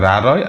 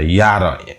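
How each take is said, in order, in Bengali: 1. প্রথম সিলেবলটি 'র' ধ্বনি দিয়ে শুরু হয়। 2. প্রথম সিলেবলটি 'য' ধ্বনি দিয়ে শুরু হয়। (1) "আমাদের মারমা অ্যাকসেন্টে বলি হচ্ছে রা রয়" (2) "বার্মিজ যে প্রমিত সেটি ওখানে বলি হচ্ছে ইয়া রয়"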